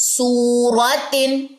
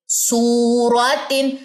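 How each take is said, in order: No difference in how they are said.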